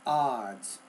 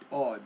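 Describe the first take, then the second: First: The word ends with a clear final S sound. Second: The word ends without a final S sound. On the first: The speaker calls it right. "but it's ah, odds" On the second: The speaker calls it wrong. "you're saying it more odd"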